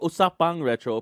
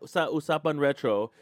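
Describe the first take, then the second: First: The first word ends with an ng sound. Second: The first word ends with a plain n sound. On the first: "it's supposed to be Usapang Retro" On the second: "I can't say it right"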